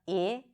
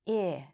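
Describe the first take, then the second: First: The vowel is tense, with the lips spread. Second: The vowel is lax, with the lips relaxed. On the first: The speaker calls it wrong. "You're not going to pull your lips to the sides, not I" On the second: The speaker calls it right. "The lips are relaxed"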